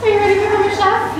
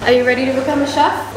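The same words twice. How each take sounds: First: Higher, fast, pumped-up ask; hyped-up repeat. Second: Said in the usual way. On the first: Shown as a demonstration. Hyping her friend up for the cooking class. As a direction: hype it like a host.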